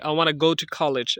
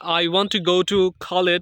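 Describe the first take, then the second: First: Want to is run together as wanna. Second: Want to is said as two full words. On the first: "এটাকে বলতে পারি" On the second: "যেমন"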